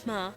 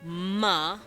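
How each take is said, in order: First: The m is said breathlessly, without voice. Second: The m is fully voiced. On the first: "you can speak M's breathlessly" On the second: "bilabial nasal"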